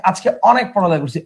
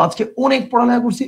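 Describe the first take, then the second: First: অনেক said "aw-nek", starting with open ɔ; open ɔ vowel. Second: অনেক said "o-nek", starting with rounded o; wrong closed vowel. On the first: Teacher offers students the natural form, অনেক as "aw-nek". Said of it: "অ এর উচ্চারণ অ এর মতোই". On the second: Teacher tests students with wrong form, অনেক as "o-nek". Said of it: "ওয়ার্ডটা কি অনেক বলো". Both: Shown as a demonstration.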